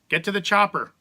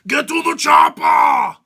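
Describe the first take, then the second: First: It is said in a plain, ordinary accent. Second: It is said in a heavy Austrian accent. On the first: The line sounds flat and unremarkable. "That sounds stupid" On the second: The line becomes memorable and iconic. "But instead, we've got"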